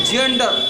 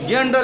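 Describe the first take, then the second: First: जेंडर with an initial "j" sound; soft g. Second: गेंडर with a hard "g" as in go. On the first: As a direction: model जेंडर starting like "jam". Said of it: "इसको क्या पढ़ना पड़ेगा". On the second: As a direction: misread गेंडर, opening on "ga". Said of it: "जी को तो गा पढ़ेगा". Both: Shown as a demonstration.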